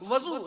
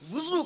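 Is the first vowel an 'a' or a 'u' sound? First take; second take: a; u. First: The first vowel is an 'a' sound. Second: The first vowel is a 'u' sound. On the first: It names the vessel that holds the water. The speaker calls it wrong. "वज़ू नहीं, वज़ू ना कहा कीजिए" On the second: It names the act of ritual washing. The speaker calls it right. "वाव पे पेश लगाइए, वुज़ू कहा कीजिए"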